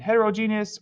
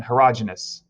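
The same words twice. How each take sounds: First: Heterogeneous as het-er-oh-JEE-nee-us; long-form pronunciation. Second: Heterogeneous as het-er-AH-juh-nus; alternative pronunciation. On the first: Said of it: "It's kind of pronounced both ways". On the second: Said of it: "or sometimes you hear". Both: Shown as a demonstration.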